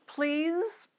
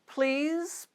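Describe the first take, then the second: The two takes are said the same way.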